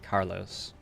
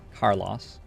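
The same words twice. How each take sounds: First: The name is said in an American accent. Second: The name is said in a New Zealand accent. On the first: "In America, I would say Carlos" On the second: "In New Zealand, I would just say Carlos"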